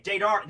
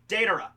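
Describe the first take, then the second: First: Deidara begun as day-DAR; Deidara cut off after a stressed "dar"; mistaken pronunciation. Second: Deidara said DAY-duh-ruh; Deidara stressed on the first syllable; corrected pronunciation. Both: Shown as a demonstration. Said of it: "no, Deidara".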